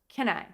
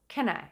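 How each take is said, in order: First: The words are reduced and said quickly. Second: The words are reduced and said quickly.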